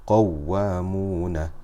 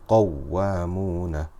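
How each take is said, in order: No difference in how they are said.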